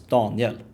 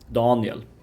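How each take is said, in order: First: Both syllables are stressed evenly. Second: The stress falls on the first syllable.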